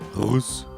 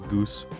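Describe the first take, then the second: First: It begins with a throaty, rasping G sound. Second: It begins with a hard English G sound. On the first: The speaker calls it right. "It's apparently Rus, because the G" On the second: The speaker calls it wrong. "my girlfriend laughed at me for pronouncing this goose"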